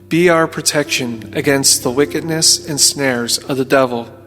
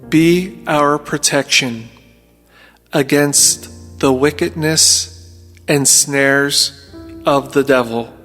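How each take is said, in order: First: It is spoken at a normal pace. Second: It is spoken slowly and deliberately.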